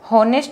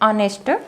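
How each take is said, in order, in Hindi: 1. इस शब्द की शुरुआत h की ध्वनि से होती है। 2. इस शब्द की शुरुआत स्वर की ध्वनि से होती है। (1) "इसको हम हॉनेस्ट नहीं पढ़ेंगे" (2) "इसको हम पढ़ते हैं ऑनेस्ट"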